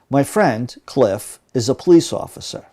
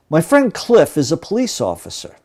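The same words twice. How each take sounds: First: Cliff is set off by brief pauses around it. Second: Cliff runs on without pauses around it. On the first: The name is just extra information about the friend. "my voice actually changes slightly when the element is non-essential" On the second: The name identifies which of several friends is meant. "Listen again to the first sentence"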